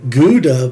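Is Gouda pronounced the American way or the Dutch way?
American. The word has an American English pronunciation. The speaker calls it wrong. "most Americans, including myself, ... I would call a Gouda pipe"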